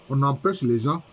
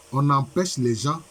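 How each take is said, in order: Both takes have the same delivery.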